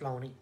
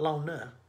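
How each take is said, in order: First: The name ends in an 'ee' vowel. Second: The name ends in an 'ah' vowel. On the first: This is how people there actually say it. The speaker calls it right. "It's Loney" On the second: This is the spelled form of the name. The speaker calls it wrong. "It's not Lona"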